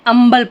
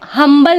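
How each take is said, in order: First: No h sound is heard at the start. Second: An h sound is heard at the start. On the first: The speaker calls it right. "अंबल पढ़ेंगे इसे" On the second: The speaker calls it wrong. "हम हम्बल नहीं पढ़ेंगे"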